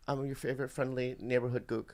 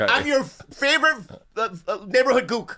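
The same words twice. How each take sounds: First: Careful, much softer delivery; soft, measured, word by word; slowed down. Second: High-pitched, stumbling rush; hurried and faltering, pitched high. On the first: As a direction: take it slowly and quietly, as instructed. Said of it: "Do it slow". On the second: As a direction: blurt it too fast, tripping over the words. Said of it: "Hey, slow down". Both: Pretend.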